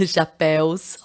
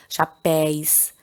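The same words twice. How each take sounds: First: "chapéus" drawn out slowly with open é and w glide; corrected chapéus. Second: "chapéus" slipped into "chapéis", no w glide; mispronounced chapéus. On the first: Teacher correcting her own slip, slow "chapéus" ending in an open éu. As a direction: say "chapéus" as "sha-PEH-oos", after a small laugh. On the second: Teacher giving an example and getting it wrong, "chapéus" said as "chapéis". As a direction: say "chapéus" with an i-glide or none, like "sha-PEHS". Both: Real, not acted. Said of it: "Ó, falei tudo errado".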